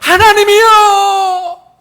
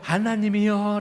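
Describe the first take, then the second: First: It is cried out in a loud voice. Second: It is called out in a soft voice. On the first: The caller is desperate, crying from deep pain. The speaker calls it right. "큰 절규와도 같이 큰 외침으로" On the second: The caller is calm and unhurried. The speaker calls it wrong. "이렇게 막 부드러운 목소리로"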